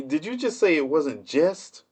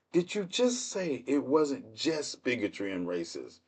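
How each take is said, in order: First: Higher-pitched question landing on "just"; incredulous challenge. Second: Slow, softer, drawn-out "just"; slow incredulous repeat. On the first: Streamer challenging excuses about racism, incredulous. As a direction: throw "just" back as a disbelieving question. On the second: Streamer repeating the racism excuse back, slowly incredulous. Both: Acted.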